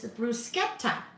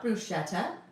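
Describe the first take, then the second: First: The middle is pronounced with an 'sk' sound. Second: The middle is pronounced with an 'sh' sound. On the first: The speaker calls it right. "It's bruschetta. Sket instead of S C H E T T" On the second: The speaker calls it wrong. "it's not bruschetta"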